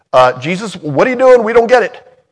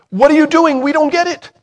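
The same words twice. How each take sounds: First: High, loud baffled disciple; puzzled Peter. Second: High, loud baffled question; puzzled Peter. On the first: Peter to Jesus at the footwashing, high confused blurt. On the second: Preacher repeating what Peter should have asked, high and baffled. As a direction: ask it high and loud, bewildered. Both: Pretend.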